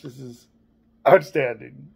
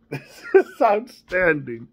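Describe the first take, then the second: First: Said in the usual way. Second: "is" stretched and lifted, slow; drawn-out emphasis on "is". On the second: Real, not acted. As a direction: slowly lean on "is" in "This is outstanding". Repeated slower, stressing "is.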